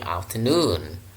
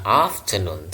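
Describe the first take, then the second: First: The final syllable is lengthened and stressed. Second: The final syllable is short and unstressed. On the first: The speaker calls it right. "nunnya yang dipanjangkan" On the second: The speaker calls it wrong. "bukan afternoon"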